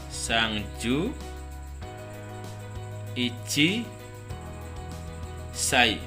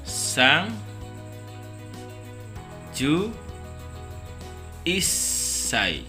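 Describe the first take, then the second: First: The number is said in full before sai. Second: The number is shortened and joined to sai. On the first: The speaker calls it wrong. "Jadi bukan sangju ichi sai, bukan" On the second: The speaker calls it right. "Tapi yang benar adalah pengucapannya sang ju isai"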